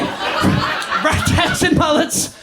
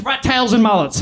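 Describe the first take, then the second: First: Slow, voiceless rasping echo; slow, hammed-up croaky whisper; strained repeat. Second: Said in the usual way. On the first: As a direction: draw the words out with hardly any voice.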